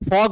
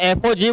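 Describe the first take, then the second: First: The letters are blended into one word. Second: Each letter is said separately. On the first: The speaker calls it wrong. "ફોગ નહીં બોલતા" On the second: The speaker calls it right. "એફઓજી બોલવાનું"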